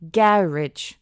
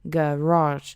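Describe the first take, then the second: First: The stress is on the first syllable. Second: The stress is on the second syllable. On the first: "con la emphasis en la primera parte" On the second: "con la énfasis en la segunda parte"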